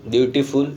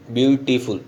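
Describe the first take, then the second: First: ब्यूटीफुल broken into its syllables with a rise at the end; teacher splitting ब्यूटीफुल into syllables; syllables shown. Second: Said in the usual way. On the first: Shown as a demonstration. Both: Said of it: "तीन syllable है".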